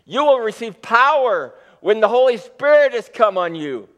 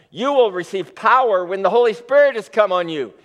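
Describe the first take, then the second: First: Lifted higher and louder with eager energy; excited. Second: Steady, firm emphasis on the promise; weighty announcement. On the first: Preacher rereading the promise to the church, excited. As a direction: proclaim it like thrilling news. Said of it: "but this is exciting". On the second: Preacher marking the key promise for his listeners, weighty emphasis. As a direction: lean on every word of "you will receive power". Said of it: "something very important is about to be said". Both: Shown as a demonstration.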